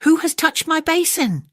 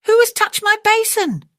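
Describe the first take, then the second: First: Much higher, louder hammed-up bear cry; a startled bear, pitched way up; father bear growl. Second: Very high, loud, strange cartoon bear voice; mother bear growl. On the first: Father bear discovering his touched basin, high mock cry. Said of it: "Father Bear growled". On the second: Mother bear echoing father, very high loud squeal. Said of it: "Mother Bear growled".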